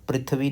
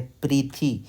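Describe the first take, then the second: First: पृथ्वी said quickly as prith-vee, th run into v; wrong pronunciation. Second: पृथ्वी broken off as slow pri-thee, vee held back; correct pronunciation. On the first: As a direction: run पृथ्वी together as in everyday Hindi. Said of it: "पृथ्वी नहीं बोलना इसको". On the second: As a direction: draw out a full ee after th in पृथ्वी. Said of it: "अब पृथ्वी नहीं बोलना इसको". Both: Shown as a demonstration.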